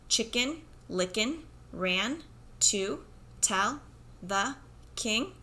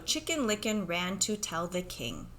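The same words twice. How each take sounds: First: It is read slowly, one word at a time. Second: It is read smoothly as one connected phrase. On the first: "a kid who sometimes says" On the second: "try to read it with fluency"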